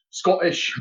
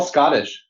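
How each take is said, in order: First: Put-on Scottish burr; Scottish accent. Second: Said in the usual way. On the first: Shown as a demonstration. Corrects himself for co-host, Scottish accent on "Scottish". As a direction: say "Scottish" as a Scot would. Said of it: "in Scottish".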